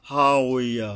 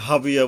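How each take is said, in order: First: হা উইয়া with long ha and a w sound; correct Arabic pronunciation. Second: হাবিয়া quickly, with b for w; common Bangla mispronunciation. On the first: Shown as a demonstration. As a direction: say হা উইয়া with w, never b. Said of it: "যেমন এখানে". (হা উইয়া আরবি ওয়াও-সহ শুদ্ধ উচ্চারণ) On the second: Retold or imitated. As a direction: say হাবিয়া with short vowels and a b. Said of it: "সবাই হাবিয়া বইলে চালাই দিচ্ছে". (হাবিয়া বাংলা ঢঙে ভুল উচ্চারণ)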